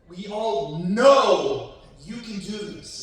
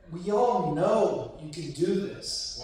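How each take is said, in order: First: It is said loudly and gung-ho. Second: It is said softly and sweetly.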